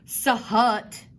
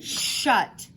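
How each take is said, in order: First: It starts with separate s and h sounds. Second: It starts with a single sh sound. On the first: The speaker calls it wrong. "you don't say sahut" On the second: The speaker calls it right. "You say shut"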